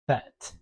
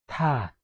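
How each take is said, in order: First: The word begins with an English th sound. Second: The word begins with a plain t sound. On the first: "this word in English is that" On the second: "there is no that word in Setswana, but if it was, it would be tat"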